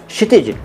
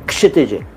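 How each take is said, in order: First: The name begins without a clear k sound. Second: The name begins with a clear k sound. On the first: The speaker calls it wrong. "दोनों गलत हैं" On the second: The speaker calls it right. "के से start करिए"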